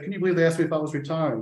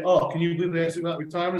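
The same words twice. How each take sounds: First: Fast, hammed-up aggrieved quote; mock victim whine. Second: Fast, hammed-up aggrieved quote with a rising "Oh"; mock victim whine. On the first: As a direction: rattle it off like a wounded player. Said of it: "Charlie turned around and twisted that and said". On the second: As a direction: play the hard-done-by striker, quickly. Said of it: "rather than to twist that around to say".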